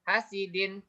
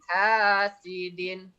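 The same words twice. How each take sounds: First: The long vowel is cut too short. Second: The long vowel is held for two beats. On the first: The speaker calls it wrong. "berarti hanya kurang panjang" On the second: The speaker calls it right. "Yang benarnya hanya dua harokat"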